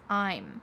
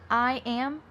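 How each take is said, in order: First: The words are contracted into one syllable. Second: Two full words are said separately. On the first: "I'm using a contraction" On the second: "I'm using a contraction. I am becomes I'm"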